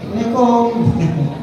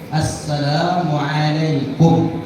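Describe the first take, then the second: First: It is said in a playful cartoon-like voice. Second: It is said earnestly, like a sincere prayer. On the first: The greeting is not meant seriously. The speaker calls it wrong. "assalamualaikumnya upin ipin" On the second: The greeting is meant as a sincere prayer. The speaker calls it right. "doakanlah yang betul-betul"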